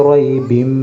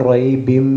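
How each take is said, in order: No difference in how they are said.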